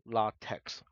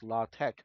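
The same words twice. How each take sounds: First: The word ends with a ks sound. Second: The word ends with a plain k sound. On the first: The speaker calls it wrong. "not latex" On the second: The speaker calls it right. "it's pronounced as LaTeX"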